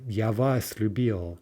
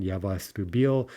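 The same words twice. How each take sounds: First: Вас lifted and stressed in Я вас любил, slowly. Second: Я and вас said light, only любил stressed; reading with both pronouns left unstressed. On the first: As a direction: lean on вас, then любил. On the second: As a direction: keep Я and вас weak, hit любил. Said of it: "neither of those get stressed". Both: Shown as a demonstration.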